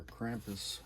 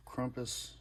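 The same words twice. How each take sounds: First: Krampus with a flat "a" as in cramp; alternative pronunciation. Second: Krampus with an open "ah", like KRAHM-pus; first pronunciation variant. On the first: Collector offering the other pronunciation, Krampus said "KRAMP-us". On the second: Collector naming the next record, Krampus said "KRAHM-pus". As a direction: say Krampus as "KRUM-pus", rounder first vowel. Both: Shown as a demonstration. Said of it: "whichever you want to pronounce it".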